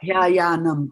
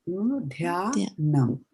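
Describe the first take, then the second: First: The word has an extra repeated ya syllable. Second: The word has a single ya syllable. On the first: The speaker calls it wrong. "it's not dhyayanam" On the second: The speaker calls it right. "There's only one ya there"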